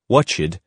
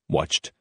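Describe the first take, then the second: First: The ending is an extra 'id' syllable. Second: The ending adds no extra syllable. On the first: The speaker calls it wrong. "students generally say ed or id" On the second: The speaker calls it right. "the correct forms"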